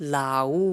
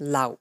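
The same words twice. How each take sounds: First: The final vowel is stretched out long. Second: The final vowel is cut short. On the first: The speaker calls it wrong. "এইখানে আমি কখনোই বলতে পারি না লাউ" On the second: The speaker calls it right. "আমি লাউ বলেই থেমে যাই"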